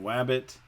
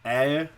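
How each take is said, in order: First: Only the r sound is replaced with w. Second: No consonant sounds are produced at all. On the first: "One type of sound that's not being produced accurately" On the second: "they're not producing any of their consonant sounds at all"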